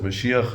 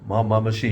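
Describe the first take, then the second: First: Said in the usual way. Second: "Ma-, Ma-, Mashiach" stammered, restarting on "Ma-" twice before "Mashiach"; fumbled pronunciation. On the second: Retold or imitated. Californian reading a sign stumbles over "Ma-, Ma-, Mashiach". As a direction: imitate a stranger stumbling into "Ma-, Ma-, Mashiach". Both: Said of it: "he didn't know how to pronounce it".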